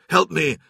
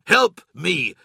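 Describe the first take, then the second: First: Urgent yell for help. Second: Loud snarled command. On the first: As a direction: shout for help, straining. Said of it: "Loken yelled". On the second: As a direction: snarl it through your teeth. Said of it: "Loken snarled again". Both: A narrator's reading.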